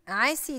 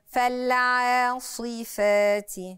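First: The s sound is light and thin. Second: The s sound is heavy and emphatic. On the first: The speaker calls it wrong. "عاسي عاسي دي حاجة تانية" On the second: The speaker calls it right. "ده حرف فخم وحرف من حروف الاستعلاء قوي"

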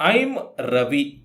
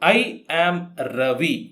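First: I and am are joined into one short syllable. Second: I and am are said as two separate words. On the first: "ಐಮ್ ಉಚ್ಚಾರ ಮಾಡುವಂಥದ್ದು ಈ ರೀತಿ" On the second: "ಐ ಆಮ್ Ravi ಅಂತ ಹೇಳಿದರೆ ತೊಂದರೆ ಇಲ್ಲ"

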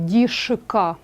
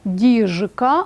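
First: The middle consonant is a voiceless sh sound. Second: The middle consonant is a voiced zh sound. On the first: The speaker calls it wrong. "це неправильно" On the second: The speaker calls it right. "глухий «к» не впливає на дзвінкий «ж»"

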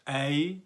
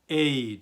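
First: The vowel is an open e sound. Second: The vowel is a closed e sound. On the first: The speaker calls it wrong. "Ey demiyoruz" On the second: The speaker calls it right. "Ey diyoruz. Kapalı bir e var"

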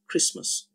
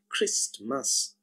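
First: The t sound is left out. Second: The t sound is pronounced. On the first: "the sound T is totally omitted and we only have Christmas" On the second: "we actually write Christmas"

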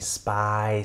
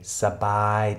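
First: The s and b are joined as a cluster. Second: A short vowel separates the s and b. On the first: The speaker calls it wrong. "Wir würden dann instinktiv lesen wollen Spy" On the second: The speaker calls it right. "Gesprochen als sabai"

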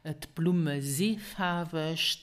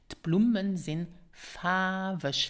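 First: The final N of the verb is dropped. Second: The final N of the verb is pronounced.

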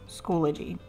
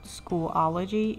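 First: The word has no extra middle syllable. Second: The word has an extra middle syllable. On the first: The speaker calls it right. "it's Schoology" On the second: The speaker calls it wrong. "it's not Schoolology"

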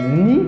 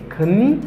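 First: The word starts with no K sound. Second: The word starts with a pronounced K sound. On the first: The speaker calls it right. "but m just genye ni" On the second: The speaker calls it wrong. "m pa genye kni"

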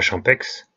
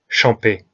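First: The word ends with an audible x sound. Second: The word ends on a vowel, no final consonant. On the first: The speaker calls it wrong. "et pas Champex" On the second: The speaker calls it right. "les X et Z ne se prononcent pas... Champé"

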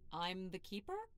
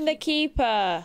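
First: It sounds doubtful and unsure. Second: It sounds confident and meant.

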